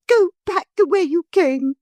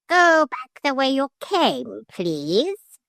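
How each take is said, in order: First: High, loud furious take of "Go back the way you came"; crying out. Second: Higher, slow coaching of the line; parrot demonstrating. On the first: A narrator's reading. Motor lady furiously crying out to the hippogriff. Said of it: "she cried". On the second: Shown as a demonstration. Parrot showing the lady what to say. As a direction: model the words for her. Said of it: "I should just say".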